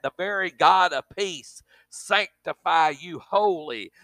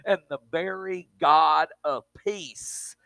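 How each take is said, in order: First: Slower, weighty rereading with "God" leaned on; emphatic reread. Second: Said in the usual way. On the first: Shown as a demonstration. Preacher rereading the verse to drive it home, emphatic. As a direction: hammer home "The very God of peace". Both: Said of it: "Did you get that?".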